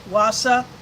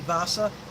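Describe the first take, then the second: First: The name begins with a W sound. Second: The name begins with a V sound. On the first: The speaker calls it wrong. "Some may pronounce it Wasa" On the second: The speaker calls it right. "the correct pronunciation would be Vasa"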